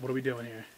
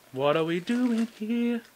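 First: Said in the usual way. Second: High, slow, drawn-out whine; whiny plea. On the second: Real, not acted. Pack opener begging the Mewtwo pack, high drawn-out whine. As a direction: stretch it out like a begging complaint.

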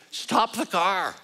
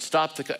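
First: High, slow shout of surprise. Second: Mild shout. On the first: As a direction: cry out to stop the car. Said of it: "I shouted". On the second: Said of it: "he shouted". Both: Retold or imitated.

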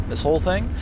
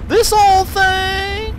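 First: Said in the usual way. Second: Very high, slow, loud disbelief; shocked high drawn-out question; incredulous. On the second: Real, not acted. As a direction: squeal it in disbelief.

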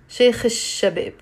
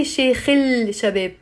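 First: "Sheikh al-Shabab" linked as "shekh-ish-shabeb"; silent L. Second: "Sheikh al-Shabab" slowly as "shekh-ill-shabeb"; drawn-out "il" in "Sheikh al-Shabab"; L wrongly pronounced. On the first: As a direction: drop the L and lengthen the sh of "Shabab". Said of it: "we don't pronounce it". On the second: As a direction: lean on a clear L before "Shabab". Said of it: "So you don't say". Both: Shown as a demonstration.

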